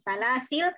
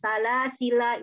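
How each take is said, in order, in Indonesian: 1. Kata ini berakhir pada konsonan, tanpa vokal. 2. Kata ini berakhir dengan vokal akhir yang dipanjangkan. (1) "karena wakof lamnya jadi sukun" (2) "dipakai alifnya sehingga panjang. Salah sila itu boleh"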